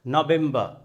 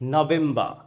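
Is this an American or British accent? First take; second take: British; British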